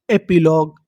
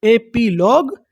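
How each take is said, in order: First: Said in the usual way. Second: epilogue in separate parts, rising at the end; measured breakdown of epilogue, pitch lifting; syllable by syllable. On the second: Shown as a demonstration. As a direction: sound out epilogue for a learner. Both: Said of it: "उसे क्या बोलते हैं".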